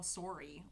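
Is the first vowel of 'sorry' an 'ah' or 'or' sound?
or. The first vowel is a rounded 'or' sound. "like that. It's very Canadian"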